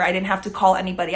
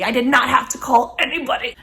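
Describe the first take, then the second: First: Said in the usual way. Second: Put-on a playful posh British accent, a little higher, stressing not; [name]'s British voice. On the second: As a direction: drop into a silly British accent to gloat. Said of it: "that little British random voice".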